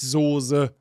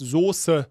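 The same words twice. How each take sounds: First: The middle s is a soft, voiced buzz. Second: The middle s is a sharp, voiceless hiss. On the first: The speaker calls it wrong. "nicht S-O-S-E" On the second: The speaker calls it right. "scharfes S oder S-Z und dann E"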